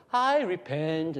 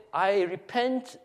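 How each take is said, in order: First: "I repent" slowly, I leaned on; alternative reading of repentance. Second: I REPENT drawn out, pitched up; slow "I repent" with raised pitch; first reading of repentance. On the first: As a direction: stretch "I repent", stressing the I. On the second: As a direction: say "I repent" slowly, higher, deliberately. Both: Shown as a demonstration. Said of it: "what was the tone".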